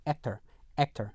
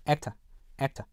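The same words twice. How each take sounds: First: American actor ending in R-coloured "er". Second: British actor ending in "uh", no R; British non-rhotic. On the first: Teacher models American ending for learners, rhotic actor. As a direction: say actor with a clear final American R. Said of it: "일반 미국 영어에서는요". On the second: Teacher models British ending for learners, R-less actor. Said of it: "영국 표준 영어에서는요". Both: Shown as a demonstration.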